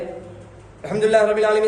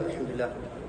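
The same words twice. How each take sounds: First: It is recited loudly. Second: It is recited softly.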